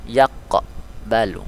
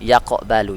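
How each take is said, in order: First: "Yaqbalu" broken after a bounced q; very slow "Yaqbalu", the q popped and held apart; slow qalqalah demonstration. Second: "Yaqbalu" with a lightly bounced q; small echo after the q in "Yaqbalu"; qalqalah on sukun. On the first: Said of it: "ini artinya cara membacanya". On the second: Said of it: "dia sukun asli". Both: Shown as a demonstration.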